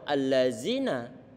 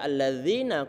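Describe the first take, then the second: First: The middle consonant is a buzzing 'z' sound. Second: The middle consonant is a soft 'dh' sound. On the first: It has no meaning. The speaker calls it wrong. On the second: It means 'those who'. The speaker calls it right.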